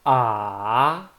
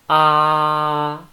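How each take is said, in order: First: The pitch dips down, then rises. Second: The pitch stays level throughout. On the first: "down first, then up" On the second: "it's flat"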